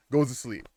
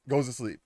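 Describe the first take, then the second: No difference in how they are said.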